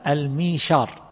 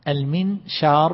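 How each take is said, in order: First: A y sound follows the first vowel. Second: An n sound follows the first vowel. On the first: "تخفيف الهمزة بقلبها ياء" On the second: "بالنون"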